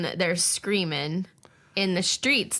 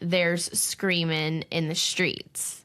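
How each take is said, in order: First: There is a pause after 'screaming'. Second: The phrase runs on without a break. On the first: "does just stop right there" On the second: "that's absolutely like a continuation"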